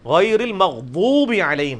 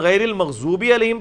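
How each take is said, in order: First: The consonant after 'magh' is an emphatic d. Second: The consonant after 'magh' is a z sound. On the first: The speaker calls it right. "है" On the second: The speaker calls it wrong. "पढ़ना हराम है"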